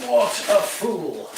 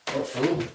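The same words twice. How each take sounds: First: Mock self-scolding. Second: Said in the usual way. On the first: Shown as a demonstration. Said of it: "repeats in drawn-out voice". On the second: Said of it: "repeats own remark".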